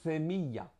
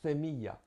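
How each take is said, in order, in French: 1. Le premier son est un th zézayé. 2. Le premier son est un th zézayé.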